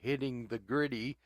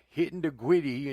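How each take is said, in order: First: The word is said with an r sound. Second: The word is said with a w sound. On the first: The speaker calls it wrong. "you can't say hitting the gritty because then you just sound like an old fart" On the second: The speaker calls it right. "you got to say it like that"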